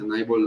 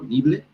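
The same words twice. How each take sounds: First: NIBBLE said as "NAI-bol"; English long-i pronunciation. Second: NIBBLE said as "NEE-ble"; Spanish spelling pronunciation. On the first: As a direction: say "nibble" with an eye sound first. («nibble» pronunciado «náibol») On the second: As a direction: read "nibble" with a Spanish ee sound. («nibble» pronunciado «nible», a la española) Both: Shown as a demonstration. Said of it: "no sé si se pronuncia".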